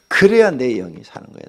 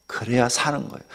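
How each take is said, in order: First: 그래야 pressed hard, the line louder; louder insistence. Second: Said in the usual way. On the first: Shown as a demonstration. Preacher hammering the point to his flock, louder. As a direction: drive 그래야 home with force.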